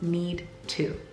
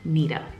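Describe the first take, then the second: First: The two words are said separately. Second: The words are squished into 'neeta'. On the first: "the contraction of the words need to" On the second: "squish it all together"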